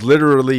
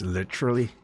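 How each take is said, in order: First: It is said in an American accent. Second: It is said in a British accent.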